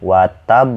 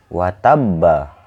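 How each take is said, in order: First: The word ends on a briefly held stop. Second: The word ends with a full vowel.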